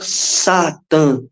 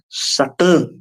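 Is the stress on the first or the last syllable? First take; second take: first; last. First: The stress is not on the last syllable. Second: The stress is strong on the last syllable. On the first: The speaker calls it wrong. "não é Satã" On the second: The speaker calls it right. "indica uma tonicidade forte na última sílaba"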